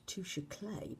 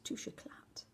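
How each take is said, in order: First: The second word is one syllable, like clay. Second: The second word has two syllables, eh-clah. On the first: The speaker calls it wrong. "I've been pronouncing this the wrong way. I thought it was Touche Clay" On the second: The speaker calls it right. "but apparently it's Touche Eclat"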